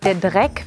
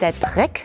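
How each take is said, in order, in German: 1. Der erste Konsonant wird weich gesprochen. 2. Der erste Konsonant wird hart gesprochen.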